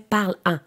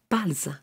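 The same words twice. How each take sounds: First: No z sound links the verb to the vowel. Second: A z sound links the verb to the vowel. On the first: The speaker calls it wrong. "nous ne dirons pas en français parle-en" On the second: The speaker calls it right. "On l'entend très bien, le S"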